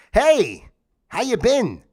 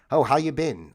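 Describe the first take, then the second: First: Loud, higher, chirpy "Hey, how you been?"; cheery greeting. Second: Said in the usual way. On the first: Shown as a demonstration. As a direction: greet the crowd brightly, testing for laughs. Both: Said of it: "let me try it out".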